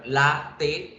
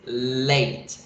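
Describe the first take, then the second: First: The word is said with two syllables. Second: The word is said with one syllable. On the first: "Si yo la leo en español, latte tiene dos sílabas" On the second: "en inglés la pronunciación es late... Tiene una sola"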